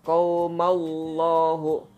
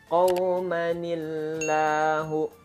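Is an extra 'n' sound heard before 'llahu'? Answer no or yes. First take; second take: no; yes. First: The words join without an 'n' sound. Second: An 'n' sound links the two words. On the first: The speaker calls it wrong. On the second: The speaker calls it right.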